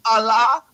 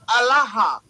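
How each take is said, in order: First: Allah said as ah-LAH with a long open final ah and a light rising end; Allah as the two-syllable form, ending on a rising ah; Allah contrasted. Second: Allaha said as al-LAH-ha with an added breathy final ha and a falling end; Allaha contrasted. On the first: Correcting a caller, saying Allah as one form of the word. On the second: Correcting a caller, saying Allaha with its extra ha. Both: Shown as a demonstration. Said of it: "They are not the same word".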